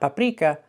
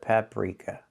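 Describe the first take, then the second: First: The R sound is rolled. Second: The R sound is an unrolled er. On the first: The speaker calls it wrong. "We do not roll our R's in English" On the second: The speaker calls it right. "The R is voiced, not rolled"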